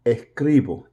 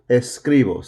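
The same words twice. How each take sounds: First: Puerto Rican Spanish, dropping the s in "Escribo"; Puerto Rican accent. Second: Said in the usual way. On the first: Shown as a demonstration. Teacher slips while modeling a verb, Puerto Rican accent. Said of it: "Puerto Rican accent in there". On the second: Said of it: "Sorry, I was putting a".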